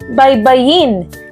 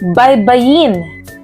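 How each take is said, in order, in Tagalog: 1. Nasa huling pantig ang diin. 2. Nasa huling pantig ang diin.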